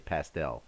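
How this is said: It is said in an American way. "that's how we in America would say it"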